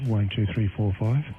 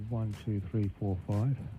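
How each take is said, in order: First: The voice sounds punchy with more power. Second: The voice sounds thin with little power. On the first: The speaker calls it right. "That should give it a little bit more drive" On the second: The speaker calls it wrong. "the drive level is quite low. Um, not so much power in the voice"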